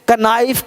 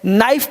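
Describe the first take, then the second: First: The word begins with a k sound. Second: The word begins with n, no k. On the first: The speaker calls it wrong. "ऐसे गलत हो जाएगा" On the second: The speaker calls it right. "नाइफ पढ़ना है"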